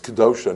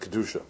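First: The middle vowel is an 'o' sound. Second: The middle vowel is a 'u' sound. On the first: The word works as an adjective describing holiness. "it's really an adjective. And it's Kedosha" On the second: The word works as a noun meaning holiness. "not Kedusha"

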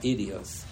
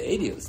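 First: The word begins with an 'ee' vowel. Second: The word begins with an 'a' vowel. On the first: The name marks this tractate as the chosen one. "not Idios" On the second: The name comes from the word for testimony. "Rashi pronounces the name in the Masechta Adios"

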